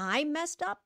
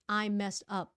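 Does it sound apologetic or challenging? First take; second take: challenging; apologetic. First: It sounds like a challenging retort. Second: It sounds like a sincere admission. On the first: The speaker challenges the accusation. "là mình đang challenge họ nha" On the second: The speaker admits the mistake. "Là mình nhận lỗi"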